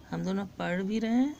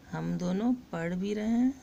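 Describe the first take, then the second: First: "हम दोनों पढ़ भी रहे हैं" rattled off fast; quicker repeat. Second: Said in the usual way. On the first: Shown as a demonstration. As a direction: rush the repeat, almost as a recap. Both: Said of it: "repeated while teaching".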